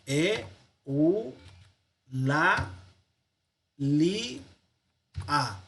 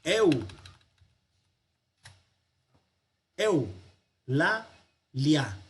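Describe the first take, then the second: First: E, u, la, li, a, each vowel apart with pauses; five separate syllables. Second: "Eu, la, lia" with both diphthongs kept whole; three syllables. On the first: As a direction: count out "e, u, la, li, a" as five isolated beats. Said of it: "no decimos, al separar sílabas". ("e, u, la, li, a" en cinco golpes separados) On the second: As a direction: separate "Eu, la, lia" into three beats, eu as one sound. ("Eu, la, lia" en tres sílabas, sin romper diptongos) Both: Shown as a demonstration.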